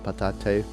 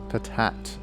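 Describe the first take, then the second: First: The word ends with an extra vowel sound. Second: The word ends on a plain t sound. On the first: "it doesn't have the little accent on the E, so it's not patate" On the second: "it's kind of funnier to pronounce it like that"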